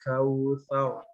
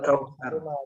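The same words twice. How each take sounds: First: The r sound is heavy and full. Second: The r sound is light and thin. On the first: The speaker calls it right. "Jadi membacanya tau tebal seperti itu" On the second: The speaker calls it wrong. "kalau kita membaca seperti biasa seperti ini"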